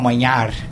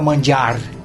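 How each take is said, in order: First: The middle consonant sounds like 'ny' in canyon. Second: The middle consonant sounds like English 'j'. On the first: This is the grandfather's Venetian form. "ele falava manhar" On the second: This is the standard Italian form. "o meu avô não falava mangiar"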